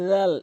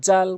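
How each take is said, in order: First: It begins with the tongue tip at the teeth. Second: It begins with a j-like sound. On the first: The speaker calls it right. "সঠিক উচ্চারণ হচ্ছে রাল" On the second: The speaker calls it wrong. "জাল কখনোই বলবেন না, ভুল উচ্চারণ"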